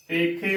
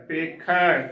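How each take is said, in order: First: ਪੇਖੇ ending in narrow long e; close e ending. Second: ਪੇਖੈ ending in open ai, like 'ae'. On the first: Teacher showing the congregation's mistake, ਪੇਖੇ with close e. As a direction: close the final vowel of ਪੇਖੇ. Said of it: "ਜੋ ਕਿ ਗਲਤ ਉਚਾਰਨ ਹੈ". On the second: Teacher spelling with dulawan, ਪੇਖੈ with open ai. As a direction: open the last vowel of ਪੇਖੈ wide. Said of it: "ਖੱਖੇ ਨੂੰ ਦੁਲਾਵਾਂ ਖੈ". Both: Shown as a demonstration.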